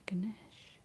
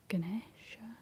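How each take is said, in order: First: "Ganesh" in two syllables, ending on "sh"; alternative pronunciation. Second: "Ganesha" with a final "a" sound, rising uncertainly; tentative pronunciation. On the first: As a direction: drop the final "a" and say "Ganesh". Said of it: "is that it?". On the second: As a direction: try out "Ganesha" in three syllables, ending on "sha". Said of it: "I'm totally butchering that". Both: Real, not acted.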